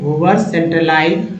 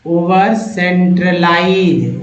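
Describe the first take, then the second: First: Said in the usual way. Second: ओवर centralise said slowly, each syllable drawn out; slow model reading. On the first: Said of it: "teacher repeats word normally". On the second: Shown as a demonstration. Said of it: "teacher models word slowly". (धीरे-धीरे, शब्द को खींचकर बोलिए)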